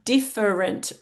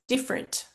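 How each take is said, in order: First: The word is said with three full syllables. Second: The word is said with only two syllables. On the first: "the word has three syllables" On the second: "we often say it with two"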